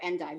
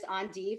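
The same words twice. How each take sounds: First: It is said with an American pronunciation. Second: It is said with a French pronunciation.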